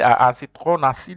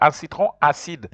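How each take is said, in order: First: The end of citron is linked to acide. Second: The end of citron is not linked to acide. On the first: The speaker calls it wrong. "you don't join, you don't say" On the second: The speaker calls it right. "you say"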